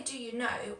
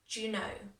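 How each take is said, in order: First: Said in the usual way. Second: "Do you know" squeezed into "d'you know"; merged words. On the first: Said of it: "when I say, "Do you know?". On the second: Shown as a demonstration. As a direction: run "Do you" together as one syllable. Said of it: "it kind of merges together".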